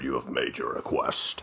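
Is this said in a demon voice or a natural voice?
demon. It is said in a put-on demon voice. The speaker calls it right.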